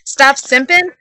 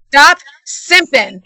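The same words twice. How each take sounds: First: "Stop simping" with a rising question tune. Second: Slow, drawn-out bad country accent. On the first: SpongeBob pondering God's words, "Stop simping" rising in question. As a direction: echo "Stop simping" as a question, normal accent. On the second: The Rock as God to his disciple, bad country accent. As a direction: put on a bad country twang, slowly. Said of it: "in a very bad country accent". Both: A narrator's reading.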